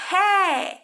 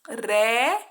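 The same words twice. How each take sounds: First: The R is a strong throaty sound. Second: The R is a light single tap. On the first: "o som forte do R é como?" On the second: "o som do R fraquinho é como?"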